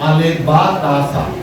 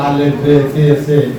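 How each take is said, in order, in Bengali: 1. অক্ষরের নামগুলো 'a' স্বরধ্বনি দিয়ে শেষ হয়। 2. অক্ষরের নামগুলো 'e' স্বরধ্বনি দিয়ে শেষ হয়। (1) "এখন আমরা জানি আলেফ বা তাসা, এটা শুদ্ধ" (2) "তখন"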